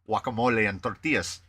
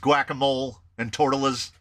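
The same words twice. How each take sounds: First: The words get a native Spanish pronunciation. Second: The words get an anglicized American pronunciation. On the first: "I don't say" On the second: "I like to make my pronunciation as bad as possible"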